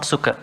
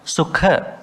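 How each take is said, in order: First: Said in the usual way. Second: "Sukha" with an emphatic puff on the kh; aspirated kh. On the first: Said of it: "not Sukha". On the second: Shown as a demonstration. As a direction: hold the k, then release "Sukha" with breath. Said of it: "not Sukha, Sukha".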